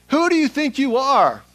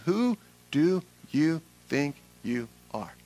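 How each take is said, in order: First: Loud, high outburst; indignant challenge. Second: Word by word, with gaps between; slow, measured challenge. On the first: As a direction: fire the question out in outrage. Acted challenge to Jesus, repeated refrain. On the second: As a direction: let each word land separately at usual pitch. Same refrain, slowed to close list. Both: Acted.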